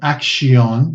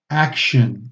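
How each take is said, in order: First: The second vowel is a full vowel. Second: The second vowel is a reduced schwa. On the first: The speaker calls it wrong. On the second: The speaker calls it right.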